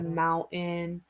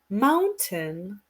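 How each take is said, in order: First: It has a relaxed American accent with a soft T. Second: It has a British accent with a clear T. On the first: "American accent, like um, we're more relaxed" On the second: "the British accent is water, mountain, like they put the T"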